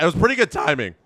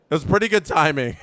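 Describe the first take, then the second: First: Said in the usual way. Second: Fast, laughing through the words. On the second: Real, not acted. Streamer laughs at his own strike call timing. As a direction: giggle it out, amused at yourself. Repeats the line, then laughs.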